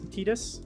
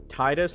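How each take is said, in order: First: The first syllable sounds like 'tee'. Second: The first syllable sounds like 'tie'. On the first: The speaker calls it right. "Like T E A D U S" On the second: The speaker calls it wrong. "Not Titus, like T I E D U S"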